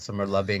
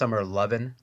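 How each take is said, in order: First: The final g sound is clearly pronounced. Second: The final g sound is dropped. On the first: The speaker calls it wrong. "I don't think there's a hard G on that" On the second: The speaker calls it right. "I think it's pronounced summer lovin'"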